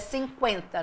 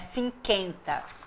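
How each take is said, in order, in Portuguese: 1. O u é pronunciado, dando kwen. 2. O u é mudo, dando ken. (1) "mas é 50" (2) "não é cinquenta"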